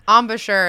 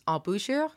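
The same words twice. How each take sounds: First: The word is said with English pronunciation. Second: The word is said with French pronunciation.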